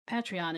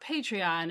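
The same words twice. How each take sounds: First: The name does not begin like patron. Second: The name begins like the word patron. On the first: The speaker calls it wrong. "Patreon is just nonsense" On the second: The speaker calls it right. "as in a patron, as in being a patron of the arts"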